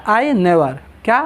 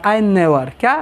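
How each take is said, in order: The two takes are said the same way.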